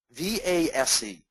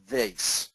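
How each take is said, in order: First: "V A S E" spelled slowly, letter by letter. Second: "vase" said as VACE, rhyming with face; spoken word vase. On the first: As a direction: spell "V A S E" out, one slow letter at a time. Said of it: "very easy acronym". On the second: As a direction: say "vase" as vace, long A, hard S. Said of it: "Remember the word". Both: Shown as a demonstration.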